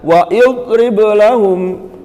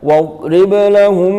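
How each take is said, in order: First: An extra i vowel is sounded before drib. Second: Wa runs straight into drib with no vowel. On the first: The speaker calls it wrong. "jangan dibaca wa idrib lahum, keliru" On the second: The speaker calls it right. "Kalau di tengah-tengah tidak terbaca"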